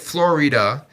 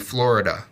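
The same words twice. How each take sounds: First: The middle 'i' is said clearly, giving three syllables. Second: The middle 'i' is dropped, giving two syllables. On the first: This is the speaker's accented way, from Puerto Rico. "you say it Florida" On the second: This is the expected standard way. "it's supposed to be Florida"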